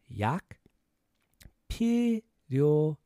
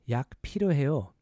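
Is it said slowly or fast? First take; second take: slowly; fast. First: It is said slowly. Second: It is said faster.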